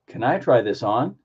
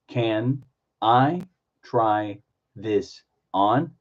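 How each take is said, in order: First: The phrase flows together at normal speed. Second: Each word is said separately with breaks. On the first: "Put it all together" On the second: "Do individual words"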